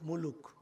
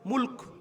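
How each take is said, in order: First: A vowel is heard between the l and k. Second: No vowel is heard between the l and k. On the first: The speaker calls it wrong. "বাংলা ভাষায় মুলুক" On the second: The speaker calls it right. "সঠিক উচ্চারণ করতে হলে কিভাবে?"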